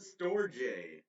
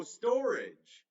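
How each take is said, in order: First: "Storj" said as STOR-jay; mistaken pronunciation. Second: "storage" said as STOR-ij, drawn out; pronounced STORAGE. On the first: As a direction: end "Storj" on a clear JAY syllable. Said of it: "I've always called it". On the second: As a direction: say "storage" slowly as the everyday word STOR-ij. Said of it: "pronounced as". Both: Shown as a demonstration.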